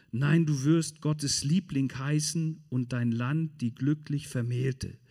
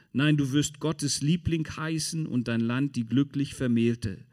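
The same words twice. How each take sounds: The two takes are said the same way.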